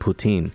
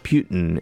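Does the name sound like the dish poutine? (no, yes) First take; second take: yes; no. First: The name sounds like the dish poutine. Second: The name does not sound like poutine. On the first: The speaker calls it right. "is actually like the Canadian dish is actually the correct pronunciation" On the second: The speaker calls it wrong. "It's not Putin"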